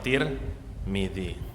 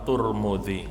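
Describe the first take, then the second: First: The first two syllables have an i vowel. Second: The first two syllables have a u vowel. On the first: "Kalau taknya di kasroh, mimnya harus di kasroh" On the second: "Kalau taknya itu di dhammah, mimnya di dhammah"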